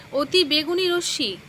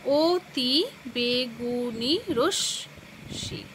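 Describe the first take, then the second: First: Said in the usual way. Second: "অতি বেগুনি রশ্মি" very slow, broken into separate syllables; "অতি বেগুনি রশ্মি" stretched into seven distinct beats. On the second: Shown as a demonstration. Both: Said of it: "শব্দকে ভেঙে ভেঙে উচ্চারণ".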